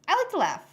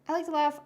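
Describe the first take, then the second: First: Higher, louder bright burst; excited. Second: Said in the usual way. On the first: Real, not acted. Telling the guest she loves comedy, excited. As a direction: pop the line up with delight. Saying favourite thing is comedy.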